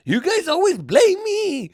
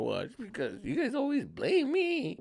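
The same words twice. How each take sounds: First: High, slow wail; hammed-up tearful whine; mock crybaby. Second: Softer, high, drawn-out whimper; mock crybaby. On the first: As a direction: wail the accusation, dragging it out. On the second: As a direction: whimper it slowly as a sulky threat. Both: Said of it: "I cried myself out of a situation".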